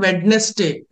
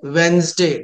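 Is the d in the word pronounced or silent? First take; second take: pronounced; silent. First: The d is pronounced and the s is hissed. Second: The d is silent and the s sounds like z. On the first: The speaker calls it wrong. "It's not Wednesday" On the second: The speaker calls it right. "D is a silent letter. Yes must be pronounced like Z"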